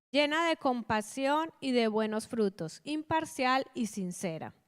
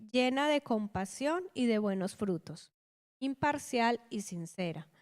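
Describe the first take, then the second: No difference in how they are said.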